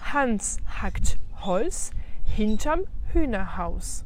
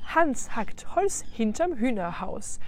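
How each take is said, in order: First: The phrase is said at a slower pace. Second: The phrase is said at a faster pace.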